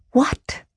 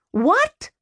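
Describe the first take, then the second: First: Breathless whispered disbelief; stunned whisper. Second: Shocked and rising, can't believe it. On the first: Sister hearing her brother's debt, whispering What in disbelief. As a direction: barely voice the word What, aghast. Stunned at his mumbled reply. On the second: Brother refused by sister, a shocked high What. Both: Acted.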